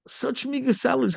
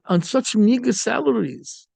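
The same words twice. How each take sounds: First: "meager" lifted higher, pressed hard; stress on meager. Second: Said in the usual way. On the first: Acted. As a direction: lean on "meager", pitch up. Preacher repeats phrase for emphasis.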